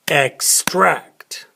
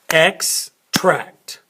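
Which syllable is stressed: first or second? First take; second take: second; first. First: The stress is on the second syllable. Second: The stress is on the first syllable. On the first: It is a verb, to pull something out. "then we emphasize the second one" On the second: It is a noun, a flavoring liquid. "we emphasize the first one"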